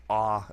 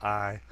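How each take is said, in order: First: "ah" said as a flat Southern ah, no glide. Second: Said in the usual way. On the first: Shown as a demonstration. Mocking a comic's Southern spelling, "ah" as a flat ah. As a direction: drawl "ah" like a Southern speaker. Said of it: "the Southern accent". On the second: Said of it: "instead of".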